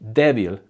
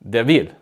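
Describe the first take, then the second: First: The stress falls on the expected syllable. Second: The stress falls on a misplaced syllable. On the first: The speaker calls it right. "instead of saying débil" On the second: The speaker calls it wrong. "put the accent or the emphasis on the wrong syllable"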